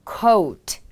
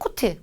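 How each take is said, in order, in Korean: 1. 영어 억양으로 발음됩니다. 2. 한국어 억양으로 발음됩니다. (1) "이렇게 발음을 해주시면 됩니다" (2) "코트가 아닌 coat"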